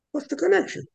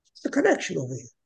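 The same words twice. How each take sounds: First: "connection" pitched much higher and rising; rising question. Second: Said in the usual way. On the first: Shown as a demonstration. Preacher pressing listeners on the link, rising high. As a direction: repeat "What's the connection?" with a high, searching rise.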